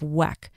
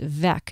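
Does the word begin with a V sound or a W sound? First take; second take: W sound; V sound. First: The word begins with a W sound. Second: The word begins with a V sound. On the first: The speaker calls it wrong. "instead of Weck" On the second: The speaker calls it right. "it should be pronounced Weck"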